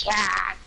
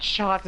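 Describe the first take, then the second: First: "chat" with a flat short a, higher; "chat" pitched up, short a as in "hat"; corrected "chat". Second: "chot" with an open ah vowel; "chot", the vowel rounded back to ah; mimicked "chot". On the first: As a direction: stress "chat" with the vowel of "cat". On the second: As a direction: say "chot" to rhyme with "shot". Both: Shown as a demonstration. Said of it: "it's not chot, it's chat".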